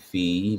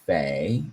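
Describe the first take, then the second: First: The word rhymes with see. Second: The word rhymes with day. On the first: "that's got to be fee" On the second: "Maybe it's fay"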